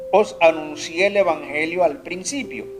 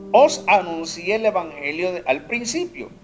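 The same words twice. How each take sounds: No difference in how they are said.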